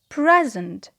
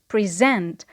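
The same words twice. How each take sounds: First: The stress is on the first syllable. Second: The stress is on the second syllable. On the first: It is a noun. "when it is a noun... it is on the first syllable" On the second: It is a verb meaning to introduce something. "when it is a verb, it is pronounced to present... the stress is on the second syllable"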